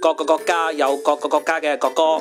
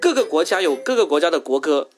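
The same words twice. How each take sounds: First: It is said in Cantonese. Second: It is said in Mandarin.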